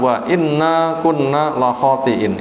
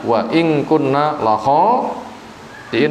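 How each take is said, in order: First: The second word has a doubled, heavy n. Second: The second word has a single, light n. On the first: "Itu bacaan bila dibaca berat"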